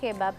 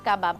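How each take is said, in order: First: The first vowel is an 'e' sound. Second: The first vowel is an 'a' sound. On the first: The speaker calls it right. "কেবাব not কাবাব" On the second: The speaker calls it wrong. "নট কাবাব"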